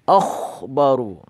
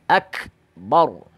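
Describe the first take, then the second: First: The middle consonant is a raspy kh. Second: The middle consonant is a hard k. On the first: The speaker calls it wrong. "menggantinya dengan kha ... itu salah ya" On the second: The speaker calls it right.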